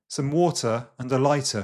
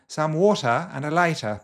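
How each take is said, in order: First: It is spoken in a Standard Southern accent. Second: It is spoken in a Received Pronunciation accent. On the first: "standard Southern" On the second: "Receive pronunciation"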